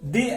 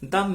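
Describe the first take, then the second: First: The word has a long 'ee' vowel. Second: The word has a short, weak 'uh' vowel. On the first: The next word starts with a vowel. "ভাওয়েলের পূর্বে ব্যবহার করা হবে তখন এর উচ্চারণ হবে দি" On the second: The next word starts with a consonant. "কনসোনেন্টের পূর্বে ব্যবহার হবে তখন এর উচ্চারণ হবে দা"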